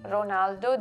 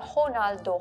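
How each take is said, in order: First: The name begins with an R sound. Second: The name begins with an H sound. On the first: "they don't say Ronaldo" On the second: "they say Ronaldo, Ho. So they they picked the Brazil, Brazilian pronunciation"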